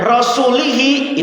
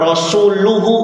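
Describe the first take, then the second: First: The word ends with i vowels: rasulihi. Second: The word ends with u vowels: rasuluhu. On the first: God disowns the Messenger too. The speaker calls it wrong. "itu bahaya artinya" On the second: The Messenger also disowns the polytheists. The speaker calls it right. "Bacanya domah rasuluhu"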